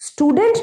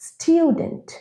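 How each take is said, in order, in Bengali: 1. t সরাসরি 'oo' ধ্বনিতে চলে যায়। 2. t-এর পরে 'yoo' ধ্বনি আসে। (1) "স্টুডেন্ট নয়"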